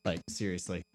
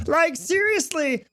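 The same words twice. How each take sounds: First: Said in the usual way. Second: Slow, smooth public-radio announcer; NPR voice. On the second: Shown as a demonstration. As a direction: stretch it out slowly like an NPR host. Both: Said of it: "I sound like I could, I could fucking be on N P R".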